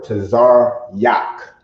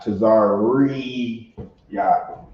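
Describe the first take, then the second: First: No extra 're' syllable in the middle. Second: An extra 're' syllable in the middle. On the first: The speaker calls it right. "or Tazar Yak" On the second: The speaker calls it wrong. "not Tazar Re Yak"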